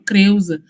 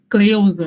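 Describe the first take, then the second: First: The consonant after C sounds like an R. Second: The consonant after C sounds like an L. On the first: It reflects the African-matrix influence on Brazilian Portuguese. "por isso eles falavam Creuza" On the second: It is the standard schooled form. "e não Cleusa"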